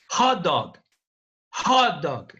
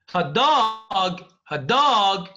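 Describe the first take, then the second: First: Hot stressed, dog lighter, said as one word. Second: Dog stressed, hot lighter. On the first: Teacher showing students the compound stress on hot. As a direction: lean on hot and run straight into dog. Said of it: "it is a compound and we mean the food". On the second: Teacher showing students the phrase stress on dog. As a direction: hit dog, not hot. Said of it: "then a dog that is hot". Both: Shown as a demonstration.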